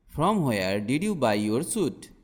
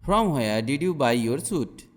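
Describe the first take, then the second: No difference in how they are said.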